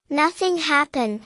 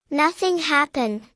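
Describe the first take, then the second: No difference in how they are said.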